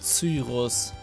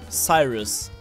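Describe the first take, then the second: First: The name is pronounced the German way. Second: The name is pronounced the English way. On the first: This is the name used in the German version. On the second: This is the name used in the English version.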